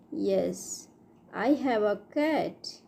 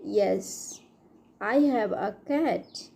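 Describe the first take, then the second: No difference in how they are said.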